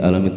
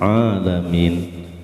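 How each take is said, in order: First: It starts with a plain glottal stop. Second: It starts with a throaty ain sound. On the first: It means the Lord who causes pain. The speaker calls it wrong. "Kalau pakai a alam menjadi ali alim" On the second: It means the Lord of all creation. The speaker calls it right. "Harusnya seharusnya alamin"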